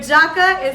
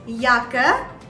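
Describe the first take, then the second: First: It begins with an English J sound. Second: It begins with a Y sound. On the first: The speaker calls it wrong. "but Jacke is wrong" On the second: The speaker calls it right. "You have to pronounce it as Jacke"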